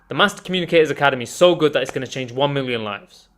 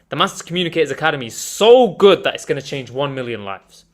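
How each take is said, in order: First: It is said flatly with little emphasis. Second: It is said with energy and emphasized words. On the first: The speaker calls it wrong. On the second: The speaker calls it right.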